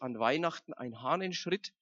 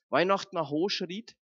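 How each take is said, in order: First: It is spoken in Standard German. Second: It is spoken in Franconian dialect. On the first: "Also auf Hochdeutsch" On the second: "ich sag's mal auf Fränkisch erst"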